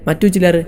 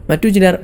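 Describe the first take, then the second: No difference in how they are said.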